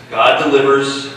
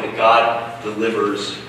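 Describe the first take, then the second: First: GOD said higher and louder, punched hard; emphatic. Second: Said in the usual way. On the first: Shown as a demonstration. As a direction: hit "God delivers" with preaching force. Preacher repeats point with emphasis.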